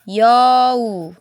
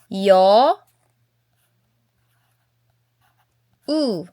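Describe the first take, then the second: First: The two syllables are joined into one smooth sound. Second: The two syllables are said separately with a break. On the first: The speaker calls it right. "isumpay bitaw mo nang mahimong yo" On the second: The speaker calls it wrong. "instead of saying yo u"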